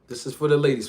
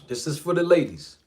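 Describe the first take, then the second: First: It is said in his normal speaking voice. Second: It is said in a smooth crooning R&B voice.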